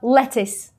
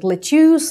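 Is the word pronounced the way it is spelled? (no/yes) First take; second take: no; yes. First: It is not pronounced the way it is spelled. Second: It is pronounced the way it is spelled. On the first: The speaker calls it right. "произносится он очень просто lettuce" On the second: The speaker calls it wrong. "пишется он как lettuce, и люди так его и произносят"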